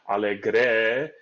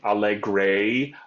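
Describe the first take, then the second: First: The final vowel stays pure without gliding. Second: The final vowel glides into a diphthong. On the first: The speaker calls it right. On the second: The speaker calls it wrong.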